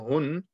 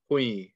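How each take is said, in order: First: The syllable ends with an n sound. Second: The syllable runs into a y sound. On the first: "normally read as hun" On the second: "You're joining the ha to the ya"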